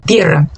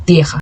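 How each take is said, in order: First: Tierra with the ie glide and a rolled r; Spanish tierra. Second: Terra with an open e and a throaty Portuguese r; Portuguese-style terra. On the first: Teacher modelling Spanish tierra with a trilled r. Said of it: "tierra, não se diz terra". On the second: Teacher showing the wrong Portuguese-style terra. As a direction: say terra the Brazilian way, guttural r. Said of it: "não se diz terra". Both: Shown as a demonstration.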